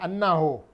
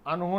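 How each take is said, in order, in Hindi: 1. n ध्वनि दोहरी और लंबी है। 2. n ध्वनि छोटी और एक है। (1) "जैसे सिया लोग बोलते हैं" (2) "अनहो नहीं बोलनी चाहिए"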